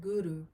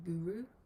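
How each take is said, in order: First: The R is rolled with a tongue flick. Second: The R is plain, without a tongue flick. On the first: The speaker calls it right. "we try and roll the R slightly, so Guru" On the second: The speaker calls it wrong. "rather than Guru"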